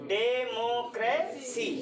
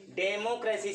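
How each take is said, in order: First: democracy slowly as डे, मो, क्रे, सी; democracy measured out syllable by syllable; spaced syllables. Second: Said in the usual way. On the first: Shown as a demonstration. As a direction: stretch each of the four syllables in democracy. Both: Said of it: "सब में space मिल रहा है बोलने से ना".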